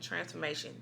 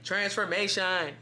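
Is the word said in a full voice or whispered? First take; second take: whispered; full voice. First: The word is said in a soft whisper. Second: The word is said in a full, loud voice. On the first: This is how the message actually came. "It's like literally just a whisper" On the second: It is not how the message actually came. "it's not like a voice like"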